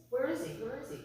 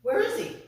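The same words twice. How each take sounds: First: Hushed, imitated worried question; acted parent murmuring anxiously; quiet searching. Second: Imitating an anxious searching parent; mild panic. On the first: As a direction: ask softly, still holding the worry in. Parents searching, before panic sets in. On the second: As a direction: let a touch of panic into the question. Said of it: "they start to panic now".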